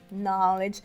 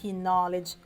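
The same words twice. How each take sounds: First: The initial K sound is silent. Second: The initial K sound is pronounced. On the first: The speaker calls it right. "a gente fala" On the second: The speaker calls it wrong. "A gente não fala"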